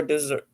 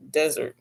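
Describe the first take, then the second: First: "Desert" said dih-ZERT, second syllable stressed, like the sweet course; "Desert" with the stress at the end, like dessert. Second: "Desert" said DEZ-ert, first syllable stressed, short e; "Desert" as in sand dunes, stress up front; Desert like the dry land. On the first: Second-guessing a lipstick name, tries "Desert" as dih-ZERT. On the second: Reading a lipstick name to viewers, says "Desert" as DEZ-ert. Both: Shown as a demonstration. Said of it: "it only has one S".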